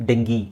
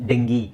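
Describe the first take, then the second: No difference in how they are said.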